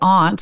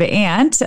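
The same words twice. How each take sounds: First: It is said in a New England accent. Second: It is said in a non-New England accent. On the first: "in New England you might say aunt" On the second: "instead of aunt"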